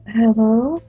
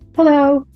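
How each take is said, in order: First: It is said in a fearful, hesitant tone. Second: It is said quickly and hurriedly. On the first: The speaker feels uneasy about the call. "I'm a little afraid" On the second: The speaker has no time to talk. "I'm kind of in a hurry"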